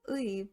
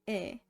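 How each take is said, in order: First: The vowel is a gliding "ui" sound. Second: The vowel is a plain "e" sound. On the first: The speaker calls it wrong. "the possessive particle isn't pronounced as 의" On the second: The speaker calls it right. "but 에"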